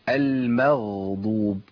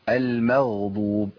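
No difference in how they are said.

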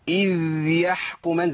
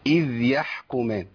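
First: The final consonant is held far too long and pressed. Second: The final consonant is held briefly without a vowel. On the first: The speaker calls it wrong. "وما ازودش الزمن قوي" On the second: The speaker calls it right. "يبقى لازم ادي الايه الزمن بتاعها"

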